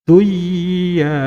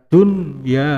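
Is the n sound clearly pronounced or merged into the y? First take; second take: merged; clear. First: The n sound merges into the y. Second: The n sound is pronounced clearly. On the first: The speaker calls it wrong. "tidak boleh dibaca duya" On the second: The speaker calls it right. "Harus dibaca dunya"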